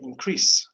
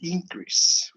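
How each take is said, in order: First: The stress is on the second syllable. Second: The stress is on the first syllable. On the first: It is used as a verb. "the second uh, syllable is higher, you know, or is more emphasized than the first" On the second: It is used as a noun. "We have to say it just opposite"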